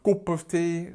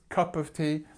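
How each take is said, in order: First: The vowel in cup is not an uh sound. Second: The vowel in cup is an uh sound. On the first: The speaker calls it wrong. "It's not cup of tea" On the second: The speaker calls it right. "remember this uh sound"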